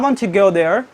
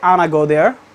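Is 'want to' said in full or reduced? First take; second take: full; reduced. First: The words want to are said in full. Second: Want to is reduced to wanna. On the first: "If they want to say" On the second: "they say like that way"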